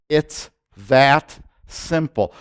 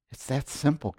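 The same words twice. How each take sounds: First: "It's that simple" drawn out slowly with weight on "that"; slow, emphatic "It's that simple"; slow stress on simple. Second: Said in the usual way. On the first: Shown as a demonstration. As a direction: lean hard on "that", very slowly.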